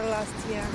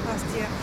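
Both takes have the same delivery.

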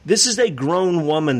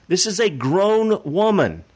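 First: Said in the usual way. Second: GROWN WOMAN drawn out slow and pitched higher; slow, emphatic rise on "grown woman"; stress on GROWN WOMAN. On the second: Real, not acted. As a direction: lean hard on "grown woman", slowing right down. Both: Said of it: "I, I stress that".

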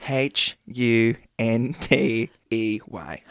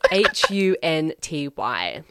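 First: Slow letter-by-letter wrong spelling of hunty. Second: Slow letter-by-letter correct spelling of hunty. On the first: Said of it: "Can you please spell that for me". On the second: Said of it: "that's actually incorrect". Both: Shown as a demonstration. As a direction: spell it out slowly, one letter at a time.

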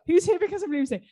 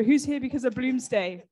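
First: Asked again much higher, with a laugh; eager laughing repeat. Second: Said in the usual way. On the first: Real, not acted. Host re-asks the audience, higher and laughing. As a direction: pitch the question up brightly, laughing.

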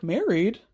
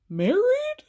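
First: Low-key questioning "Married", falling at the end; puzzled echo. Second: "Married" soaring high into a question; incredulous echo. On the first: Friend echoing the insult about married men, puzzled. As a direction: echo the word with restrained doubt. Acts out Charisse repeating the word. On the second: Friend stunned by the married men jab, incredulous. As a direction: squeak the word in exaggerated disbelief. Repeats it in mounting disbelief. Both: Retold or imitated.

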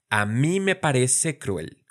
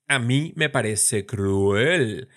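First: Said in the usual way. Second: "cruel" stretched into two slow syllables, as a wrong example; slow, exaggerated syllable split on "cruel"; overly split syllables. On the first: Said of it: "Y no decimos". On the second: Shown as a demonstration. Teacher showing the wrong way to split "cruel". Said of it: "exageración retórica".

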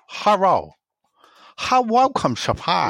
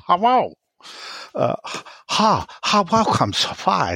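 First: High, lightly put-on Chinese accent. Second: Lightly put-on Chinese accent; a hint of a Chinese accent. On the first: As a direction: Sean doing a mild Chinese accent. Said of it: "an impression of Sean doing a Chinese man". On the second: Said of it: "doing a Chinese accent".

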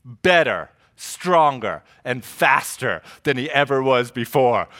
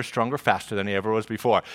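First: Each word set apart, slow and weighty; dramatic slogan. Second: Quick, softer rush; eager anticipation. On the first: Acted. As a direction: land every word like a TV slogan. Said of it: "they made Steve Austin". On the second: Retold or imitated. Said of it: "I'm like".

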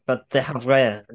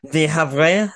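First: "the Havre" said slowly as English "the HAV-ray", falling; "Havre" spoken as "hav-ray" with English "the"; anglicized Havre. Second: "The Havre" said as English "the HAV-ray", rising; "Havre" spoken as "hav-ray" with English "the"; anglicized Havre. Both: Real, not acted. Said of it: "so sorry about my French".

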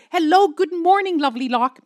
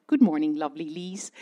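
First: Bright, much higher and louder sing-song hello; chirpy morning call to the desk; cheery greeting. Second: Lower, plainer voice of the London desk answering; a hint of a polite colleague being nice; lower reply. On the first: Retold or imitated. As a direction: beam down the phone to London. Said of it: "I called them Lovely Locke". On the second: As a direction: colleague returning the greeting, lower and calmer. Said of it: "sometimes they said".

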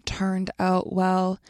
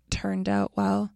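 First: Turned out well drawn out slowly, each word apart; slow, spelled out. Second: Said in the usual way. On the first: Shown as a demonstration. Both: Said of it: "I also plan to read it slower".

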